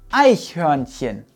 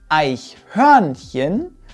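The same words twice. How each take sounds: First: The stress is on the first syllable. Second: The stress is on the second syllable. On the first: The speaker calls it right. "die erste Silbe wird betont" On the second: The speaker calls it wrong. "Es heißt also nicht Eichhörnchen"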